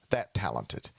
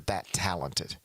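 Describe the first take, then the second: First: That talented, dropped low and slow with weight on talented; stress on talented. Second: Said in the usual way. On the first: Shown as a demonstration. Host repeats Embiid praise, stress on talented. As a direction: lean hard on the word talented. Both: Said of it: "I emphasize the word talented".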